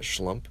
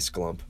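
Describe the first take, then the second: First: It begins with a 'shl' sound. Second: It begins with a 'skl' sound. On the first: "What was the word? Oh yeah" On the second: "So this would be probably sklump"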